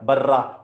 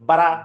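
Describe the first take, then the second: First: The r sound is held and doubled. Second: The r sound is short and single. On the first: The speaker calls it right. "र की आवाज कितनी निकली" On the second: The speaker calls it wrong. "बर्रा को बरा पड़े"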